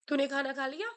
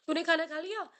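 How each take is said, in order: First: लिया rising at the end as a yes-no question; rising question tune. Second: खाना stressed, rising to the end on लिया; rising question tune. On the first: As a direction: ask "तूने खाना खा लिया?" with a lift on लिया. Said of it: "for example". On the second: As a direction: ask "तूने खाना खा लिया?" with only the voice rising. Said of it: "no क्या". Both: Shown as a demonstration.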